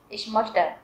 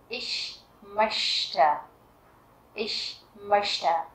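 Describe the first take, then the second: First: The ch is a harsher, different sound. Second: The ch is a soft sh-like sound. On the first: The speaker calls it wrong. "chứ không phải là" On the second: The speaker calls it right. "chữ CH ở đây đứng sau âm ôm laut thì mình sẽ đọc là âm như là chữ ish"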